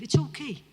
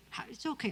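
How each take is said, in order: First: Louder, higher, firm it's okay; firm permission. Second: Much softer, reassuring it's okay; gentle reassurance. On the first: Preacher tells distracted listeners firmly it's okay to leave. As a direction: say it out boldly to the crowd. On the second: Preacher softly reassures the crowd after telling them to leave. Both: Real, not acted.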